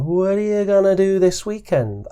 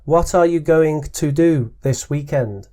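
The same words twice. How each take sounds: First: The words run together in natural connected speech. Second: Each word is pronounced carefully and separately. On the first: The listener copied the speaker's sounds. The speaker calls it right. "I get it" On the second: The listener ignored the speaker's sounds. The speaker calls it wrong. "In your own way, without comparing the sounds I was using"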